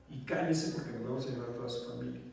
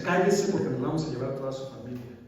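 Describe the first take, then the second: First: Said in the usual way. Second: Louder, barking the threat; loud mock of the police threat; threatening order. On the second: (orden amenazante en voz más fuerte) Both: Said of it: "me decían".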